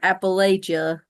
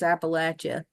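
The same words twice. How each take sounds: First: The word does not sound like 'apple at ya'. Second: The word sounds like 'apple at ya'. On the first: The speaker calls it wrong. "it's not Appalachia" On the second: The speaker calls it right. "I'm gonna throw an apple at you"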